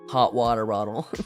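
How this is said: The T sounds are soft, like D sounds. "That's how she says that. ... why are there so many D's in that?"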